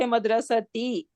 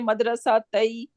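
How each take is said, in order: First: An 'i' vowel comes after the t sound. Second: An 'a' vowel comes after the t sound. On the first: The speaker calls it right. "I need to say madrasati" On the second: The speaker calls it wrong. "I cannot say madrasa tai"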